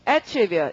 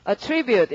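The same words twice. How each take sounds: First: The stress is on the first syllable. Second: The stress is on the second syllable. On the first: It is used as a noun. "명사로 하면 강세가 앞이어서" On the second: It is used as a verb. "동사로 읽으시면 발음이 어떻고?"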